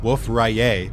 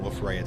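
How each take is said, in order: First: Rayet is pronounced the French way. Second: Rayet is pronounced the English way. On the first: "apparently, Wolf Rayet is pronounced Wolf Rayet ... the guy was French" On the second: "I refuse to pronounce it like that"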